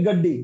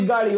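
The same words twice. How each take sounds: First: গাড্ডি with a hard, doubled d; Indian pronunciation. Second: Said in the usual way. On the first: Shown as a demonstration. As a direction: say গাড্ডি as "gad-di", Indian style. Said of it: "ওরা বলে কি". (ভারতীয় উচ্চারণে গাড্ডি, ড-এর দ্বিত্ব) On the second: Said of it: "আমরা বলি".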